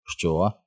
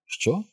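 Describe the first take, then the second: First: Mr. Vandemar. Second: High, softer questioning "Що?"; Mr. Croup. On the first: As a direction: ask it slow-wittedly, without raising the pitch much. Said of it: "Містер Вандемар повільно блимнув". (стримане, незворушне запитання) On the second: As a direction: lift it sharply in pitch, keep it light. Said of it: "Круп зиркнув на маркіза і сказав". (високе, тихіше запитання) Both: A narrator's reading.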